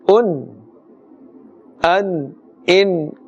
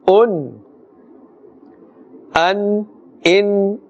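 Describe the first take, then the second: Both takes have the same delivery.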